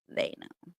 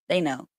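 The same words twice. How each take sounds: First: Whispered echo. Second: Said in the usual way. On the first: Real, not acted. Echoing to the viewers that the angels know, whispered. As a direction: breathe it again as a secret.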